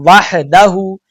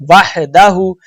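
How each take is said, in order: No difference in how they are said.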